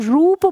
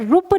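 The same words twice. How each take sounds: First: The vowel u is said long. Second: The vowel u is said short. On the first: The speaker calls it right. "रूप शब्द में बड़ा ऊ रहेगा" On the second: The speaker calls it wrong. "हम इसे रूप नहीं"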